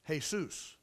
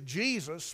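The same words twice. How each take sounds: First: The name begins with an H sound. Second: The name begins with a J sound.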